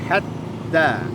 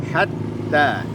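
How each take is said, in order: Both takes have the same delivery.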